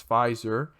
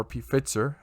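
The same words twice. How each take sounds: First: Said in the usual way. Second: Alternative pronunciation of "Pfizer". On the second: Shown as a demonstration. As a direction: say "Pfizer" the variant way, as an aside. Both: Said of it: "however you wanna pronounce it".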